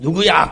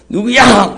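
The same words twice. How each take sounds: First: The name is called at normal volume. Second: The name is called in a louder voice.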